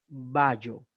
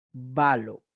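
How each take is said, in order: First: Bayo drawn out with a Y sound; wrong Castilian sound. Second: Balo with a clear L, louder; correct Greek sound. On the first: Teacher telling students never to pronounce it so, slow bayo with Y. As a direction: say bayo slowly, elle in place of L. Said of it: "jamás pronuncien bayo". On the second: Teacher giving the correction after the error, louder balo with L. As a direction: say balo firmly with L, not Y. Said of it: "jamás pronuncien bayo, balo". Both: Shown as a demonstration.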